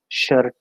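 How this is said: It is said with an Indian accent. "whereas the Indians, you know, as shirt"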